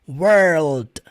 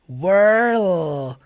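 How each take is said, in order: First: The word ends with a soft d sound. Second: The word ends on the l sound. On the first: "eu vou fazer esse D de modo bem sutil" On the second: "Depois o som do L"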